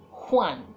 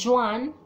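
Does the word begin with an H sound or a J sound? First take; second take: H sound; J sound. First: It begins with a breathy H sound. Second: It begins with a hard English J sound. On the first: The speaker calls it right. "J sounds like the H" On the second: The speaker calls it wrong. "Not Juan"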